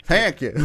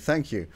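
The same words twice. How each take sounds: First: "thank you" with a bright Irish lilt; Irish accent. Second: Said in the usual way. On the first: Shown as a demonstration. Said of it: "in an Irish accent". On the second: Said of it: "right, opposed to".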